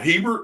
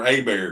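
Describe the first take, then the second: First: It starts with an H and ends with T. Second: It starts with a vowel and ends without T. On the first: The speaker calls it wrong. "are we going Hebert" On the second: The speaker calls it right. "Come find out it was Abear"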